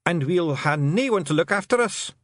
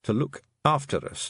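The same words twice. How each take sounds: First: High Scottish plaint; pitched-up, woeful Scots voice; plaintive Feegle. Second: Puzzled, understated echo; inward echo. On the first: Acted. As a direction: lament it as a helpless little clansman. Feegle laments being left without carer. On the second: A narrator's reading. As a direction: think the words over privately. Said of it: "thought Tiffany".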